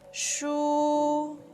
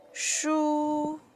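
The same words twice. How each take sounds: First: The pitch stays high and level. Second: The same.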